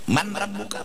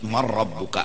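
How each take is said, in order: First: The n is pronounced clearly before the r. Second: The n merges into the following r sound.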